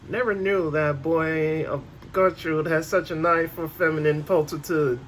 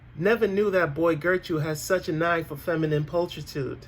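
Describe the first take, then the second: First: It is drawled in Buck Lona's put-on voice. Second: It is read in a plain narrating voice.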